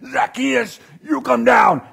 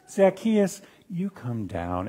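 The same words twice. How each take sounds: First: It is said in an angry tone. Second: It is said in a friendly tone.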